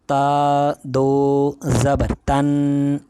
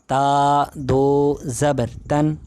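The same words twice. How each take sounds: First: The syllable is said with exaggerated, overdone articulation. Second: The syllable is said with moderate, restrained articulation. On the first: The speaker calls it wrong. "थोड़ी और ज़्यादती करें तो ये अल्फाज गलत हो जाते हैं" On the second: The speaker calls it right. "ये इस तरह सही तरीका है"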